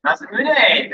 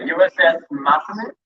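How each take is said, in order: First: Masamune said firmly, falling; corrected pronunciation. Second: Masamune asked with a rising question; unsure pronunciation. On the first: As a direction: Masamune repeated after the correction. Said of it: "thank you". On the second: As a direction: Masamune tried hesitantly, rising at the end. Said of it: "I'm gonna butcher this". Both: Real, not acted.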